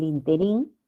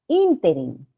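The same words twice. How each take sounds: First: The stress falls on the last syllable. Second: The stress falls on the first syllable. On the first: The speaker calls it wrong. "si se pronuncia así, en el interín, sería aguda" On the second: The speaker calls it right. "la palabra no es interín, es interín. Acá está la sílaba tónica"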